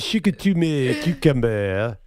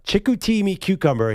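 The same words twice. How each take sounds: First: It is said in a put-on French accent. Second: It is said in the speaker's ordinary accent.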